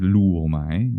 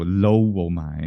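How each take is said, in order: First: The first vowel sounds like 'oo'. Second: The first vowel sounds like 'oh'. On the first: The speaker calls it right. "We say lu-wo-mai" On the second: The speaker calls it wrong. "we don't say oh for"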